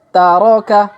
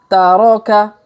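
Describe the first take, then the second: No difference in how they are said.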